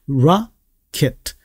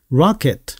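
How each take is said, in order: First: "rocket" slowly split, ra... ket, with open "ah" first; syllable-by-syllable rocket. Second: "rocket" as one word with an open "ah" first; joined-up rocket. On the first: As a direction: separate "rocket" into two careful beats. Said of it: "그렇게 하시면 안 되고 라". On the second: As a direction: run "rocket" together, stressed on the first syllable. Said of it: "아 발음입니다". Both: Shown as a demonstration.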